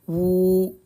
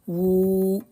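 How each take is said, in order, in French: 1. La voyelle après w est longue. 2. La voyelle après w est longue.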